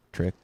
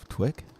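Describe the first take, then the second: First: Said in the usual way. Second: Mock lisp on twick, tw instead of tr. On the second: Shown as a demonstration. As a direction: say twick with a w for the r, rising.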